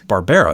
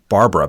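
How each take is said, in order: First: The middle syllable sounds like 'bear'. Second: The name sounds like the woman's name Barbara. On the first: The speaker calls it right. "but it's Barbera" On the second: The speaker calls it wrong. "I've heard people call it, pronounce it Barbara"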